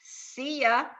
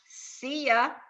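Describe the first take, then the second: First: The words are run together and reduced. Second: The same.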